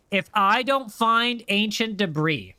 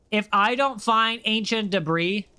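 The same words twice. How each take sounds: The two takes are said the same way.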